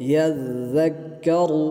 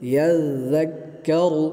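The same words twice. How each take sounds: No difference in how they are said.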